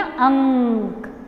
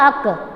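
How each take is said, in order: First: "अंक" very slow with a long ng; correct pronunciation. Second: "अक" short, with no nasal; wrong pronunciation. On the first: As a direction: hum through the nasal in "अंक" before k. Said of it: "हमें क्या बोलना?". ("अंक" में अनुस्वार खींचकर) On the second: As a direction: drop the ng and say just "अक". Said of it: "wrong हो जाएगा". ("अक" बिना अनुस्वार के, छोटा) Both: Shown as a demonstration.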